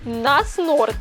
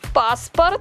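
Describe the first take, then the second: First: The word starts with an N sound. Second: The word starts with a P sound. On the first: The speaker calls it wrong. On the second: The speaker calls it right.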